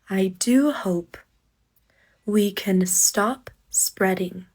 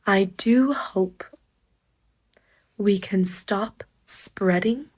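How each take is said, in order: Both takes have the same delivery.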